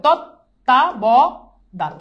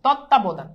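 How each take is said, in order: First: "তত্ত্বাবধান" slow, split into tot, ta, bo, dhan; ভাঙা উচ্চারণ. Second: Said in the usual way. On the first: Shown as a demonstration. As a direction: dictate "তত্ত্বাবধান" one syllable at a time. ("তত্ত্বাবধান" ধীরে ভেঙে ভেঙে) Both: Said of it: "এটা এভাবেও লিখতে পারো".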